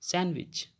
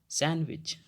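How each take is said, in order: Both takes have the same delivery.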